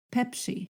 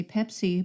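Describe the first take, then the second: First: "Pepsi" with the s pushed toward sh; Yurok S. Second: "Pepsi" with a plain English s; usual English S. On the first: Teacher shows how Yurok people say it, S near sh. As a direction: say "Pepsi" almost as "Pepshi". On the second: Teacher gives what people usually say, plain English S. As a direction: say "Pepsi" with a crisp s sound. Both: Shown as a demonstration. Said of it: "but they'll say Pepsi".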